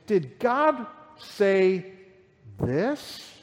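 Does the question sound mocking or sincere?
mocking. It sounds sneering and insinuating, casting doubt. He is subtly casting doubt on God's word. The speaker calls it right. "no. It's"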